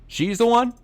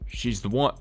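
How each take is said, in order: First: The stress falls on the first word. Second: The stress does not fall on the first word. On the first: The speaker calls it right. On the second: The speaker calls it wrong.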